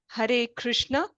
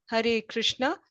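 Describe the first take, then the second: No difference in how they are said.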